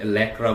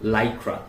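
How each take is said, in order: First: The first vowel is a short 'a'. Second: The first vowel is 'eye'. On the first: The speaker calls it wrong. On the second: The speaker calls it right.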